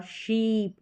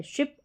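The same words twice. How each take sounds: First: शीप with a long "ee". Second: शिप with a short "i". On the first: Teacher contrasting sheep with ship, long vowel shown. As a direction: hold the vowel of शीप longer. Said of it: "दोनों का उच्चारण अलग है". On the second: Teacher contrasting ship with sheep, short vowel shown. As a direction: keep शिप quick in the vowel. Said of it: "आई का छोटी ई के रूप में". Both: Shown as a demonstration.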